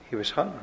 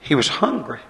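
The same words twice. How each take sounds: First: Much softer, trailing off; quiet repeat. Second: Said in the usual way. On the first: Real, not acted. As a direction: drop to a soft echo of the line. Repeated for emphasis.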